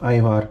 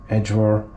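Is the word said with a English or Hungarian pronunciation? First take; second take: Hungarian; English. First: The word is said with a Hungarian pronunciation. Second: The word is said with an English pronunciation. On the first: "with the Hungarian pronunciation" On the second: "in English it would be"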